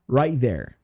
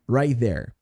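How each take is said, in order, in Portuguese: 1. O T de 'right' é omitido e ligado. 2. O T de 'right' é omitido e ligado.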